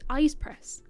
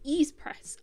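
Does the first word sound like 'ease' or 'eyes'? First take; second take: eyes; ease. First: The first word sounds like 'eyes'. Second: The first word sounds like 'ease'. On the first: The speaker calls it right. "I'm trying to do better" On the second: The speaker calls it wrong. "I've been pronouncing it wrong"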